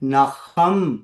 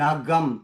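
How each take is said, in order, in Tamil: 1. நடுவில் உள்ள மெய்யெழுத்து மென்மையான, பலவீனமான ஒலி. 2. நடுவில் உள்ள மெய்யெழுத்து கடினமான k நிறுத்த ஒலி.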